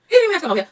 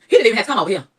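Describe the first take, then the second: First: Much higher, louder sing-song mockery; high mocking repeat. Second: Louder, incredulous first take; louder mock disbelief; indignant quote. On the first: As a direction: tease him in a high jeering voice. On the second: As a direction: scoff at him showing up, voice up. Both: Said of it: "I said".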